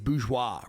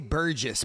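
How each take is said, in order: First: The word ends with a 'zhwah' sound. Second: The word ends with a 'jess' sound. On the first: The speaker calls it right. "I think it's bourgeois, right?" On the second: The speaker calls it wrong. "I always say it wrong. I always say Burgess"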